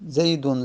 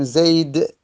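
First: زیدون with an added -un ending; tanween when not pausing. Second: زید ending on a bare d, no vowel; sukun at pause. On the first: Teacher showing the unpaused form, زیدون with tanween -un. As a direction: carry زیدون through to a final -un. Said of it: "اگر وقف نکردیم". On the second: Teacher showing the paused form, زید with a silent ending. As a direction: stop زید dead on its final d, vowelless. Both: Shown as a demonstration.

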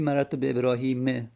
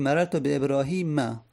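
First: ابراهیم ending in a short "e", ebrahime; wrong kasra ending. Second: ابراهیم ending in a short "a", ebrahima; fatha ending. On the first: Teacher showing students the wrong case, ابراهیم ending "-me". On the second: Teacher showing students the correct case, ابراهیم ending "-ma". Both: Shown as a demonstration.

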